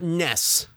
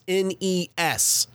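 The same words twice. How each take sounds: First: It is pronounced as a single word. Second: It is spelled out as three separate letters. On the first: The speaker calls it wrong. "not NES. It's not a word" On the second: The speaker calls it right. "It is NES"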